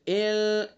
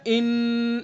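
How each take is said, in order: First: The n-sound is hidden and softened, partly nasal. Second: The n-sound comes fully and openly through the nose. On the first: The speaker calls it right. "बल्कि छुपा कर नाक की नरम हड्डी से" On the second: The speaker calls it wrong. "ये नाक से निकल रही है आवाज, इन इस तरह नहीं निकालनी है"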